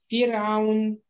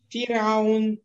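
Both takes have the same delivery.

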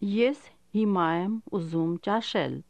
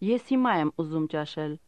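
First: It is said slowly and carefully. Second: It is said at normal conversational speed.

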